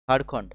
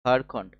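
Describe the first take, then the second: No difference in how they are said.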